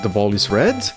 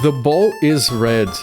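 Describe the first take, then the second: First: The voice rises at the end. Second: The voice falls at the end.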